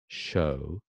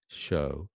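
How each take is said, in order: First: The vowel is said with fairly rounded lips. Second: The same.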